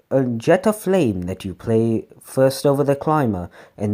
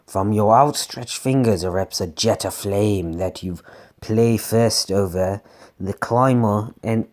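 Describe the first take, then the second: First: Said in the usual way. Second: Low, slightly evil storytelling voice; lightly sinister low read; evil narrator. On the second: Acted. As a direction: slip into a darker, lower narrator. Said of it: "God, I'm changing voices ... I guess I went evil".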